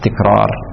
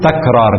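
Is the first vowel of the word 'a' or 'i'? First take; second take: i; a. First: The first syllable has the vowel i (tikrar). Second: The first syllable has the vowel a (takrar). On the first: The speaker calls it wrong. "لا تكرار" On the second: The speaker calls it right. "فالصحيح أن نقول تكرار"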